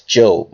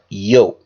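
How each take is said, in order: First: The name begins with a J sound. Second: The name begins with a Y sound. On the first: "which we'll pronounce as Job" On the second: "actual pronunciation is"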